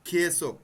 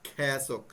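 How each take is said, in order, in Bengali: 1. প্রথম স্বরধ্বনিটি 'e' এর মতো শোনায়। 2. প্রথম স্বরধ্বনিটি 'ae' এর মতো শোনায়। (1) "আপনারা যখন মুখস্থ করবেন খেসক" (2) "কিন্তু বলার সময় খ্যাসক"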